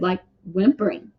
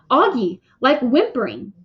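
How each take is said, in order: First: Said in the usual way. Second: Mildly exasperated correction; big sister losing patience a little; impatient. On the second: A narrator's reading. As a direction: repeat it with rising impatience. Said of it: "she answered impatiently".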